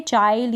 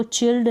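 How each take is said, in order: First: चाइल्ड with an "eye" glide; correct vowel demo. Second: चिल्ड with a short "i"; mispronunciation demo. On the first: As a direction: say चाइल्ड like English "child". (चाइल्ड में आइ की आवाज़) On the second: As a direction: say चिल्ड like English "chilled". (चिल्ड में छोटी इ की मात्रा) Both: Shown as a demonstration. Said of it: "इसको चिल्ड ना पढ़ें".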